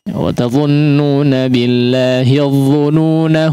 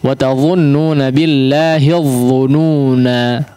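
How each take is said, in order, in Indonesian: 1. Kata terakhir berakhir dengan vokal pendek. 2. Kata terakhir berakhir dengan vokal panjang. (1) "Kalau mau diwasalkan maka alifnya tidak dianggap ya" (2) "karena ini kebetulan ... terdapat pada akhir ayat ya, maka rata-rata memang diwaqafkan ya"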